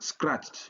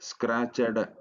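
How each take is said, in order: First: The ending joins the word in one syllable. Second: The ending is said as an extra syllable. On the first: The speaker calls it right. "ಮೊನೋಸಿಲಬಲ್" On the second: The speaker calls it wrong. "ಸ್ಕ್ರಾಚಡ್ ಅಂತ ನಾವು ಉಚ್ಚಾರಣೆ ಮಾಡಲ್ಲ"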